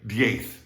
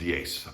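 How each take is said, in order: First: The final sound is a th sound. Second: The final sound is an s sound. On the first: This is how it is said in Spain. "in Spain, they would say diez" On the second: This is how it is said in the Americas. "therefore it's pronounced diez"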